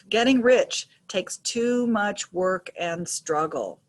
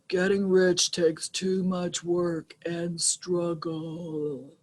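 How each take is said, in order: First: The sentence is spoken at a normal pace. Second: The sentence is spoken at a slow pace.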